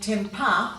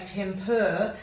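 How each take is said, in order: First: The word ends in a weak schwa sound. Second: The word ends in a full 'er' sound. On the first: The speaker calls it wrong. "we tend to give it a schwa ending, which is a grunt sound" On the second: The speaker calls it right. "we should say temper"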